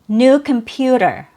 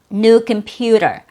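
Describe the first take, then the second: First: The t is a quick d-like flap. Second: The t is a quick d-like flap.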